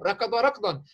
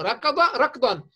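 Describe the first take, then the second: First: Said in the usual way. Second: Slow and deliberate, stressing ركضا; slow emphatic model phrase; slow example for noticing. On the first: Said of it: "لاحظوا التشابه". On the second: Shown as a demonstration. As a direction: spell out ركض ركضا slowly so pupils notice. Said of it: "لاحظوا".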